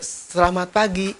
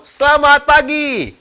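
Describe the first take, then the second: First: It is said slowly and quietly, without energy. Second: It is said loudly with lively energy. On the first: The speaker is nervous. The speaker calls it wrong. "karena grogi, ngomongnya pelan-pelan" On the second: The speaker is confident and ready. The speaker calls it right. "kita harus mengucapkan dengan semangat ya"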